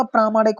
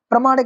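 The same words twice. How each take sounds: First: प्रामाणिक with a long first "praa"; correct long vowel. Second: प्रामाणिक said with a short first vowel, "pra-"; wrong short vowel. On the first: Teacher showing the correct form, long first vowel in प्रामाणिक. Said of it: "होता". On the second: Teacher showing the wrong form, short first vowel in प्रामाणिक. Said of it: "नहीं होता". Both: Shown as a demonstration.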